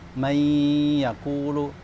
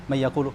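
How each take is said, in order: First: The n merges fully into the following y. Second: The n is sounded separately before the y. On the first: The speaker calls it right. "seharusnya idgham" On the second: The speaker calls it wrong. "malah dia enggak idgham"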